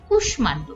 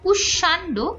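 First: The m sound in the middle is pronounced. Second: The m sound in the middle is silent. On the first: The speaker calls it right. "কিন্তু উচ্চারণ হচ্ছে কুষ্মাণ্ড" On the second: The speaker calls it wrong. "এখানে আমাদের হওয়া উচিত কুষ্মাণ্ড"

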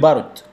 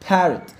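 First: The word begins with a B sound. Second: The word begins with a P sound. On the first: The speaker calls it wrong. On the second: The speaker calls it right.

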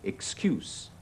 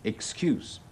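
First: The word ends with an s sound. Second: The word ends with an s sound.

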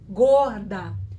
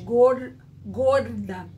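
First: The word has a Rio de Janeiro pronunciation. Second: The word has a São Paulo pronunciation. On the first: "O carioca diz gorda" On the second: "O paulista já diz gorda. Ele já puxa no R"

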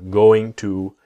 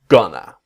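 First: Both words are said fully and separately. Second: The words blend into one short reduced word. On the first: "going to comes gonna" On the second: "going to comes gonna"

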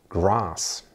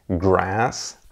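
First: The vowel is an open back 'ah' sound. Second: The vowel is a flat front 'ae' sound. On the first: "im britischen Englisch ... klingt das genau wie ein deutsches A" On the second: "im amerikanischen Englisch ... eher wie ein deutsches Ä"

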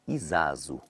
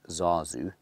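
First: The word starts with an extra vowel sound. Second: The word starts directly with the z sound. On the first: This is how Zulu speakers say it. The speaker calls it right. "They say Izazu" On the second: This is how people who don't speak Zulu say it. The speaker calls it wrong. "They don't say it Zazu, that's how we people who don't really know how to speak Zulu say it"

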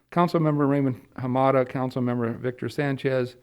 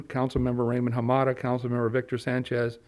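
Both takes have the same delivery.

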